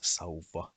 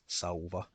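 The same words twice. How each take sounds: First: The V sound is long. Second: The V sound is short. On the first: The speaker calls it right. "it is pronounced as sauva with a long V sound" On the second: The speaker calls it wrong. "it is not pronounced as sauva, no"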